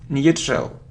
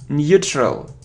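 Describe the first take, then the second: No difference in how they are said.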